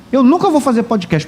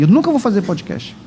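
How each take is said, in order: First: "nunca" hit as the peak of the line, falling at the end; stress on nunca. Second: Said in the usual way. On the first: Real, not acted. Pastor vows to the church he will never podcast, stress on "nunca". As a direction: lean hard on "nunca", firm and final. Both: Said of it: "pode escrever aí".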